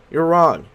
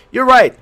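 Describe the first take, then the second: First: Said in the usual way. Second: Louder and higher you're right; loud emphatic. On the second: Shown as a demonstration. Player tests both answer choices aloud, loud. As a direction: punch it out.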